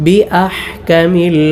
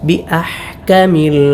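Both takes have the same delivery.

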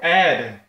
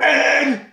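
First: The word is said at a normal volume. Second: The word is screamed very loudly.

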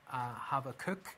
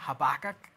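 First: It is said the Hebrew way. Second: It is said the American way. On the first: "in the Hebrew, I think the correct pronunciation is Habakkuk" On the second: "if you're American, Habakkuk, they pronounce it as"

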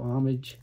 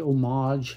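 First: The word is said in a plainer, everyday way. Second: The word is said in a fancier, pretentious way. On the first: It suggests showing respect. "instead of homage" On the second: It suggests giving tribute. "I've been trying to say homage lately"

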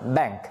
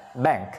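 Both takes have the same delivery.

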